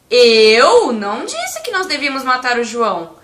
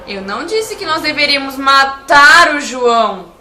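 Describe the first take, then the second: First: The word 'eu' is stressed. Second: The word 'matar' is stressed. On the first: Someone else said it. "Se eu enfatizar a palavra eu" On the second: Something other than killing was meant. "Se eu enfatizar a palavra matar"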